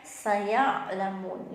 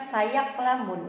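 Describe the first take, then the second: First: The middle consonant is soft and flexible. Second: The middle consonant is a hard, abrupt stop. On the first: The speaker calls it right. "kita bacanya lentur ya" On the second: The speaker calls it wrong. "bukan sayaklamun"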